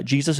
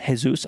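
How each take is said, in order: First: "Jesus" said the English way, JEE-zus; English pronunciation. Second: "Jesus" said Spanish-style, hay-SOOS; Spanish pronunciation. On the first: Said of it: "I asked him". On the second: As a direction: say "Jesus" with an H and final oos. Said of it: "it is Jesus". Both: Shown as a demonstration.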